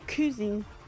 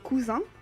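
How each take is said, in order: First: It is pronounced with English sounds. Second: It is pronounced with French sounds. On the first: "You usually say cousin" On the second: "in French we say cousin"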